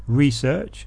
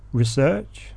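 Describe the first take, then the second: First: Research stressed on the first syllable, REsearch, slow; research as a noun. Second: Research stressed on the second syllable, reSEARCH; research as a verb. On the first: Teacher reading the word list to learners, noun REsearch said slowly. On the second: Teacher reading the word list to learners, verb reSEARCH. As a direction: say research as the verb, weight on SEARCH. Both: Shown as a demonstration.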